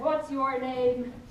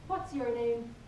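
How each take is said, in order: First: The question is asked in a louder voice. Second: The question is asked at normal volume.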